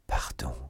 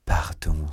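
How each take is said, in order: First: Low, whispery plea; supplication. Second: Low but stronger plea; cri de supplication. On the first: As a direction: breathe it out, begging. Stunned man begs forgiveness. (supplier tout bas) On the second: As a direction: push the plea out, voice kept low. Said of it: "s'écria Felton". (implorer plus fort, d'une voix grave) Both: A narrator's reading.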